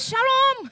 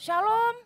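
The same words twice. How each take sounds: First: The word is said loudly, with more force. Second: The word is said softly, without much force.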